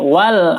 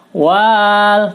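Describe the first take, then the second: First: The vowel after w is kept short. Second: The vowel after w is drawn out long. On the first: The speaker calls it right. "batal dibaca panjang" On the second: The speaker calls it wrong. "jangan dibaca"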